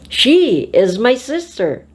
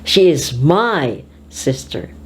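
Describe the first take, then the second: First: The stress falls on the word she. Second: The stress falls on the word sister. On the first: It is this girl, not another girl. "not the other girl" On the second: She is a sister, not a cousin. "Not my cousin"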